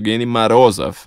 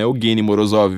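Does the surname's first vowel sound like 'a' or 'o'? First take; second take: a; o. First: The surname's first vowel sounds like 'a'. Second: The surname's first vowel sounds like 'o'. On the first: The speaker calls it right. "É Evgeny Marozov" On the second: The speaker calls it wrong. "não é Evgeny Morozov"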